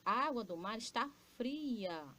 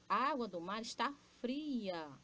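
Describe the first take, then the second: First: It is said as an exclamation. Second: The same.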